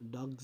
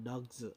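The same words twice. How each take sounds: First: The word ends in a voiced z sound. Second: The word ends in a voiceless s sound. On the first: The speaker calls it right. "కానీ డాగ్స్ డాగ్స్ అనాలి" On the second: The speaker calls it wrong. "డాగ్స్ అంటున్నాము"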